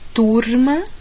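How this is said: The r is a light tongue tap. "Capital paulista. ... Vibra um pouquinho a língua"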